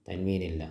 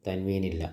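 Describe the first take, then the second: No difference in how they are said.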